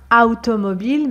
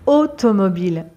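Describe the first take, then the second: First: The first vowel is not an o sound. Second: The first vowel is an o sound. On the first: The speaker calls it wrong. "on ne dit pas automobile" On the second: The speaker calls it right. "A plus U en français se prononce O"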